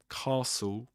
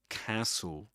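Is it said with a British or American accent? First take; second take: British; American. First: It is said with a British accent. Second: It is said with an American accent.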